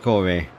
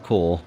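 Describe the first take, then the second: First: The name ends with an 'ee' vowel. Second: The name ends with an 'r' sound. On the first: The speaker calls it right. "I'm going to pronounce right this time" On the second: The speaker calls it wrong. "instead of Core"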